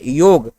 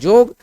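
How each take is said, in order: First: The word begins with a 'y' sound. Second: The word begins with a 'j' sound. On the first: This is the standard Hindi form. "जैसे योग" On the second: This is the Nagpuri form. "बन जाता है जोग"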